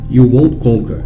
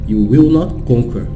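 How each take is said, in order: First: Will not is contracted into one short word. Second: Will not is said as two full words. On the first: It sounds less like a curse. "É a forma mais menos praguejante" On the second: It stresses the curse strongly. "Se você fala will not ao invés de won't, ... Enfatizando"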